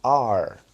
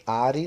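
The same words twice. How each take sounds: First: "Are" as one loud syllable, "ahr"; corrected pronunciation. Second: "are" with an added final i, "ah-ree"; Brazilian-style two-syllable "are", as "á-ri"; wrong pronunciation. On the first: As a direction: end "Are" on the r, no vowel after it. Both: Shown as a demonstration. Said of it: "não falem are não".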